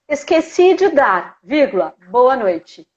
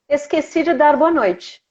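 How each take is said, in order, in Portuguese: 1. Há uma pausa depois da palavra dar. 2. Segue sem pausa depois de dar. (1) "vírgula" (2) "vamos tirar a vírgula"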